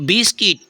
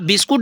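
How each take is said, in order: First: The second syllable is said with an 'i' sound. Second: The second syllable is said with a 'u' sound. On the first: The speaker calls it right. "यू हो गया है आपका silent" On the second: The speaker calls it wrong. "आप बिस्कुट नहीं कहेंगे"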